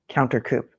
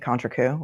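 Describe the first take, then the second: First: The first part sounds like English 'counter'. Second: The first part sounds like French 'contre'. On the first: The speaker calls it wrong. "if Hank Brennan says counter coupe, you have to drink" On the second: The speaker calls it right. "It's really"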